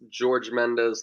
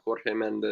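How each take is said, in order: First: The first name starts with a soft 'zh' sound. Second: The first name starts with a different, harder sound. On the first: The speaker calls it right. "It's George Mendes" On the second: The speaker calls it wrong. "not Jorge Mendes"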